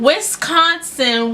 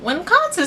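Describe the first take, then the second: First: "Wisconsin" slowly sounded out as "Wis-CON-sin"; corrected Wisconsin. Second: First syllable of "Wisconsin" slurred into "win"; mispronounced Wisconsin. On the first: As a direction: stretch "Wisconsin" with a clear s in "Wis". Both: Real, not acted. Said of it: "that place with a W".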